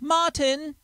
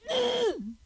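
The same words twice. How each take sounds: First: Shouted in an English accent, both syllables clear. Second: Shouted in a local accent, the final syllable swallowed. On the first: "somebody in England could go" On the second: "over here, this is what we do"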